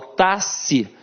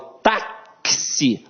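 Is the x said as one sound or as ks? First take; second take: one sound; ks. First: The x is said as a single sound. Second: The x is said as a k plus s. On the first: The speaker calls it wrong. "eu não falo taxi" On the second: The speaker calls it right. "o X aqui tem som de K S"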